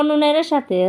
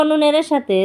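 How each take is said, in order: The two takes are said the same way.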